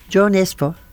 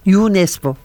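First: The first name starts with a 'j' sound. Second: The first name starts with a 'y' sound. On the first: The speaker calls it wrong. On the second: The speaker calls it right.

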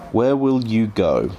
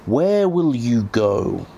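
First: It is said in the speaker's normal voice. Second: It is said in a put-on character voice.

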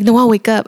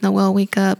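First: It is said harshly and loudly. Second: It is said softly and gently.

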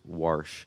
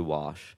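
First: It is said in a Baltimore accent. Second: It is said in a standard accent. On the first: This is how a parent says it. "Mom says wash" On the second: This is the speaker's trained pronunciation. "I had to train myself to say wash because I just didn't want to sound like South Baltimore"

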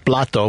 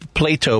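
First: It is said with a Spanish pronunciation. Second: It is said with an English pronunciation. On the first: It means a plate. "but in Spanish is plato, which means plate" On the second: It names the philosopher. "I want to open a restaurant called Plato"

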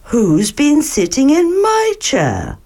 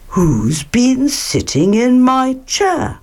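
First: It is said in Mother Bear's voice. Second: It is said in Father Bear's voice.

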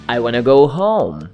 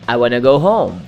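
First: It is said naturally, with 'want to' reduced to 'wanna'. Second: It is said naturally, with 'want to' reduced to 'wanna'.

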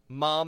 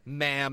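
First: The vowel is long and open, as in palm. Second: The vowel is short and flat, as in ham. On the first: The speaker calls it right. "mom is in palm" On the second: The speaker calls it wrong. "not... ma'am as in ham"

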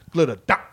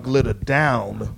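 First: The -ed ending is dropped and run together. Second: The -ed ending is clearly pronounced. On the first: "when you get so caught up in the moment, it just comes out" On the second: "where you can actually hear the pronunciation"

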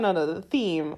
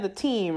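First: The word starts with a th sound. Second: The word starts with a plain t sound. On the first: The speaker calls it right. "no, the theme" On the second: The speaker calls it wrong. "I don't say my ths"

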